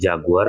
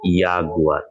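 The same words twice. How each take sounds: First: The word begins with a J sound. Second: The word begins with a Y sound. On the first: The speaker calls it wrong. "bukan jadi jaguar" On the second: The speaker calls it right. "tapi jaguar"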